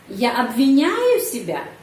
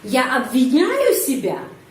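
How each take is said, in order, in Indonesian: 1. Penekanan pertanyaan ada di kata tengah. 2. Penekanan pertanyaan ada di kata tengah.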